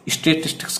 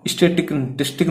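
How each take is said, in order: First: Said in the usual way. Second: "स्टैटिस्टिक" ending on a k, without the s; final s dropped. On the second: Shown as a demonstration. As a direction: say "स्टैटिस्टिक" with no s after the last k. ("स्टैटिस्टिक", आख़िर में स के बिना) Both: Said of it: "स्टैटिस्टिक नहीं बोलेंगे".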